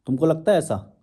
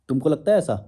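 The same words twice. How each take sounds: The two takes are said the same way.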